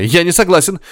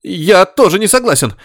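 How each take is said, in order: First: Shouting. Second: High shriek that breaks; squealing, cracking voice. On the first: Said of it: "закричал Горишвили". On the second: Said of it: "взвизгнул каким-то срывающимся голосом". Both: A narrator's reading.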